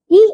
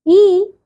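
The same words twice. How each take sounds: First: ई cut short, one brief beat; short vowel. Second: ई held for two beats; long vowel. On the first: Teacher showing pupils short vowels, brief ई. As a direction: say ई quickly, without holding it. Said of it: "इनके उच्चारण में सबसे कम समय लगता है". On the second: Teacher showing pupils long vowels, held ई. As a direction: draw ई out to double length. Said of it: "ह्रस्व स्वर से दुगुना समय". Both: Shown as a demonstration.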